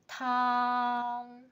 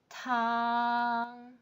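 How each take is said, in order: First: The pitch stays high and level. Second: The same.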